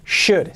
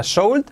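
First: "should" with a silent L, like "shood". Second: "should" said with a sounded L, like "soult"; mispronounced with L. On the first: Teacher corrects learners, saying "should" with the L silent. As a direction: say "should" with sh and no L sound. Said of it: "sin la L". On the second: Teacher warns learners off a mistake, "should" with a sounded L. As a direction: say "should" wrongly, letting the L be heard. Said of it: "no se pronuncia should". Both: Shown as a demonstration.

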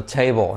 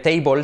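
First: "table" with puffed T and swallowed dark L; English TABLE, dark L. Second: "table" with a full Spanish "bol" ending; wrong TABLE, "téibol". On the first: ("table" con L fuerte inglesa, casi "chéibo") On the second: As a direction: spell out "table" as "tei-bol". ("table" como "téibol", a la española) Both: Shown as a demonstration. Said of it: "no se dice table".

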